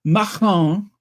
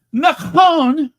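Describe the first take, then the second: First: Macron said the French way, stress on the last syllable; a light French accent on Macron. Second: Says speaking of Macron with a French accent, loud and high; French-accented Macron, nasal vowels, dropped r. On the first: Vlogger repeats the name in her French accent. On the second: Vlogger showing off her French accent to viewers, French accent. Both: Shown as a demonstration. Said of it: "that's my French accent".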